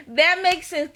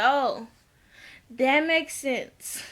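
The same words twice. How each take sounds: First: Said in the usual way. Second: Drawn-out, slow knowing reply; slow deadpan. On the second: Retold or imitated. Vlogger answering KK's story, slow and dry. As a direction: let it land slowly, dry and knowing.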